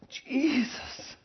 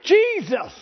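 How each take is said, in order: First: It is said softly. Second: It is said loudly.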